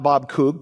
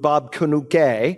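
First: The surname sounds like the single syllable 'Cook'. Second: The surname sounds like 'Kanuke', with two syllables. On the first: This is not how most people say the name. The speaker calls it wrong. "not Bob Cook" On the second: This is how most people say the name. The speaker calls it right. "is how most people pronounce it"

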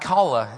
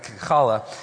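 First: It begins with a plain, soft h sound. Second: It begins with a rough, guttural throat sound. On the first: The speaker calls it wrong. "Not challah" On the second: The speaker calls it right. "It's like you're choking on popcorn"

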